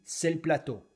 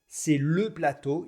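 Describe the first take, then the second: First: The vowel in 'le' is dropped. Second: The vowel in 'le' is fully pronounced. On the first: "ne prononce pratiquement jamais les E" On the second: "Au lieu de dire"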